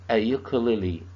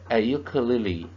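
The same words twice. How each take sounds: The two takes are said the same way.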